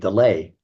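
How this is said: The name is said the French way. "in France or in Belgium, the part where they speak French, they pronounce Delahaye"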